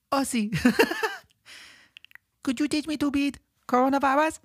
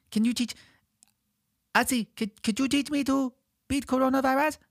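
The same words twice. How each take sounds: First: Put-on high little child voice broken by laughter; laughing toddler voice. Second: Put-on high little child pleading; toddler voice. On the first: Small child asking [name] again, laughing toddler voice. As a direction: laugh through a tiny kid's plea. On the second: Small child asking [name] to teach him, high toddler voice. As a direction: ask it like a tiny kid. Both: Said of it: "that's how I talk when I'm two or three".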